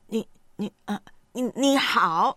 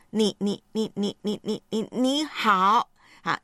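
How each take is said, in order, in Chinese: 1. 说话在发出来之前卡住了。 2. 第一个音重复了好几次。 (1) "第三呢是阻塞，就是没有办法顺畅的说话" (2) "第一个就是重复，就是反复的说出单词的开头音"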